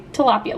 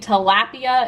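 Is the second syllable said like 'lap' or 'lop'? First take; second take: lop; lap. First: The second syllable sounds like 'lop'. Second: The second syllable sounds like 'lap'. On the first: "number two will be tilapia" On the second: "Number one will be tilapia"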